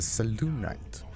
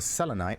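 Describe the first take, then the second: First: The middle syllable has an 'oo' vowel. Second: The middle syllable has no 'oo' vowel. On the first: The speaker calls it right. "It's a Selûnite. Pronunciation on the U part of it" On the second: The speaker calls it wrong. "not a selenite"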